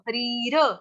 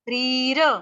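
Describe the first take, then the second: First: The h sound at the start is fully pronounced. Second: The h sound at the start is nearly silent. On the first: The speaker calls it wrong. "हरीर बोलोगे तो ह पूरा आ जाएगा फिर श्लोक आपका गलत हो जाएगा" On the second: The speaker calls it right. "ह साइलेंट कर लेना"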